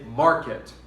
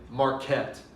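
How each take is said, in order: First: The stress is on the first syllable. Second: The stress is on the second syllable. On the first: The speaker calls it right. "we stress the mar" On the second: The speaker calls it wrong. "We do not say marquette"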